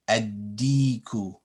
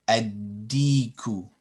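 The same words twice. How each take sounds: No difference in how they are said.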